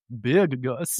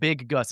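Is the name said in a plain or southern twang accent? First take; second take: southern twang; plain. First: It is said with a southern twang. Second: It is said in a plain, neutral accent. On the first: The speaker calls it right. "you cannot say it without having some sort of southern twang" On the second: The speaker calls it wrong. "It's not"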